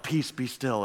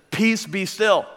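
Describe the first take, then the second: First: Hushed, much softer, slow and serene; deep spiritual calm. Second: Said in the usual way. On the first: Retold or imitated. Preacher imagines Jesus calmly hushing the storm, softly. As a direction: let the words settle like still water. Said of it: "this very deep spiritual moment". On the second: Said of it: "he says".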